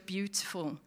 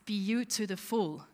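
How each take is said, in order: First: The word carries its ordinary stress pattern. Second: The word carries a shifted, unusual stress pattern. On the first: "heisst auf Englisch ja beautiful" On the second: "wenn man es jetzt so ein bisschen anders könnte betonen"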